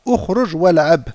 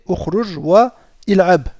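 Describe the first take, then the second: First: "Ukhruj wal'ab" with wa fused to l'ab; the spoken form, hamza silent; with liaison. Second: "Ukhruj wa il'ab" with wa and il'ab apart; the underlying form, no liaison; base form. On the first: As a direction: say "wal'ab" as one word, the i dropped. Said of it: "On dira". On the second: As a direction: sound the i of "il'ab" after a clear "wa". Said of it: "À la base". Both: Shown as a demonstration.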